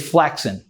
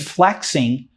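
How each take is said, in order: First: The word ends in 'in' without the g. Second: The word ends with a full 'ing' sound. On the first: "Flexing without the G at the end" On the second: "Instead of saying flexing"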